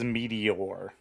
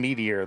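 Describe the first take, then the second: First: The final 'or' part is clearly pronounced. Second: The final 'or' part is dropped or reduced. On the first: This is the way hardly anyone says the name. "No one says Meteor. They don't pronounce the or part of it" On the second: This is how most people say the name. "Everyone calls him Meteor, though"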